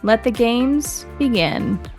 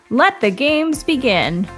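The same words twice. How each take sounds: First: It is said dramatically but with control. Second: It is said over the top, very excited.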